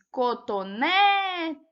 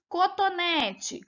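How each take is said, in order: First: "cotonete" with NÉ loud and long drawn out; stress on NÉ. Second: Said in the usual way. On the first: Shown as a demonstration. Teacher letting pupils hear the stressed syllable, stress on NÉ in "cotonete". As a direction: hold and punch the NÉ in "cotonete". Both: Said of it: "A gente percebe aí que era o né".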